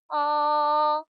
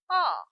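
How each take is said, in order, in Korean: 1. 높고 평평하게 끝까지 유지됩니다. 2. 높은 음에서 낮은 음으로 급하게 떨어집니다. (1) "가장 높은 음에서 시작합니다. 높고 평평한 음이에요" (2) "솔의 음에서 시작하여 도의 음으로 길게 네, 떨어지는 음입니다"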